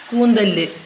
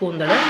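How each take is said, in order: First: The word ends in 'l' plus a short 'u'. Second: The word ends in a bare 'l' sound. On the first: This is the form used in Thrissur. "അവിടെ" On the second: This is the local form here. "ഇവിടെ"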